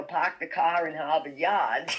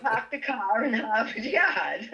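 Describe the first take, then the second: First: Park the car in Harvard Yard with dropped r sounds, lightly voiced; quoting the Boston phrase in passing; quoted Boston accent. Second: Slow laughing Boston accent, Park the car in Harvard Yard with no r sounds. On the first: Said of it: "totally blasted out with". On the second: Shown as a demonstration. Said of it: "worse Boston accent".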